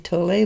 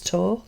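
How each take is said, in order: First: The name is said with two syllables. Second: The name is said with one syllable. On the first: This is how North Americans say the name. "North Americans say Tolle" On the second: The speaker suspects this is the correct pronunciation. "I kind of have a hunch it's Tolle, T O L"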